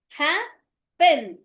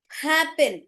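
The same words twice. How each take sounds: First: "happen" broken in two, "hap", pause, "pen"; split into syllables. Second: Said in the usual way. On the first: Shown as a demonstration. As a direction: sound out "happen" slowly, syllable by syllable. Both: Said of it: "तो प एक ही sound".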